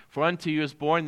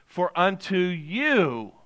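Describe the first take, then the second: First: Said in the usual way. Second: "you" drawn out and lifted, the phrase slowed; stress on YOU. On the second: Shown as a demonstration. Pastor pointing the verse at his listeners, stressing "you". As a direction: lean long and hard on "you". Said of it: "I'm emphasizing you".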